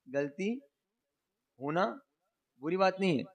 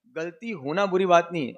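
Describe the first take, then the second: First: पause after गलती and after होना, each word set apart; slow, spaced for emphasis. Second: Said in the usual way. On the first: Shown as a demonstration. Preacher stressing the maxim to his listeners, slow and spaced. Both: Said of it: "गलती / होना (repeated with pauses)".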